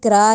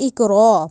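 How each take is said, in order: First: The R is light, with unrounded lips. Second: The R is heavy, with rounded lips. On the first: The speaker calls it wrong. "इसको इकरा नहीं कहना" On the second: The speaker calls it right. "मुंह को गोल करके मोटा करके रॉ को पढ़ना है"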